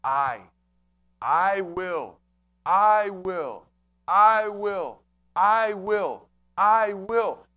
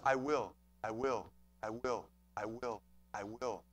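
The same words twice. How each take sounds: First: I punched loud and drawn out before will; emphatic, ringing I in I will; stress on I. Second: Very low, soft, even repetitions; hushed, low and unstressed I WILL; understated, unemphasized. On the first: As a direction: hit the word I hard each time, far stronger than will. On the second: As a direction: say I WILL quietly and low, no punch on either word. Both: Shown as a demonstration. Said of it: "Emphasis on the I".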